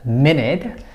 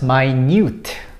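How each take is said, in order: First: The first syllable does not sound like 'my'. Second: The first syllable sounds like 'my'. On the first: A unit of time. "it is a unit of time" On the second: Something very small. "It becomes my and it becomes minute, totally different"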